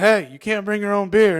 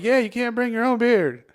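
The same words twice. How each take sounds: First: Raised-voice bartender telling someone off; mock scolding. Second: High, loud echo of a scolding; mock indignant agreement. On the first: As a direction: call out a loud, high reprimand. Acted bartender scolding drinkers. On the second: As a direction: chime in righteously, voice pitched up. Drunkenly echoes bartender's scolding at others.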